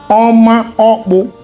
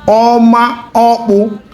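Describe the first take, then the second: Both takes have the same delivery.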